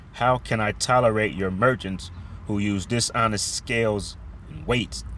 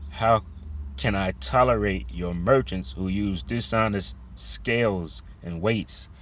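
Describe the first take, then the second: No difference in how they are said.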